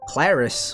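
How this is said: The name is said with American-style pronunciation. "like dumb American"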